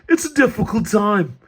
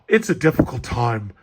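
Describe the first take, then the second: First: It is said in a put-on Australian-sounding accent. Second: It is said in a plain, natural accent.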